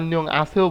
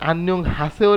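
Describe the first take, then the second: First: The second word begins without an h sound. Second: The second word begins with an h sound. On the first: "তখন আর হিউত উচ্চারিত হবে না" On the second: "আন্যং হাসেও রে আন্যং আছেও বলতেছি কেন"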